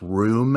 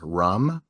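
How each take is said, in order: First: The vowel is long, like in 'room'. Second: The vowel is short, like the drink 'rum'. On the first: "I pronounce room as rum" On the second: "I pronounce room as rum"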